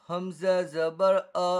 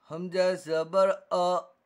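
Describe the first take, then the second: No difference in how they are said.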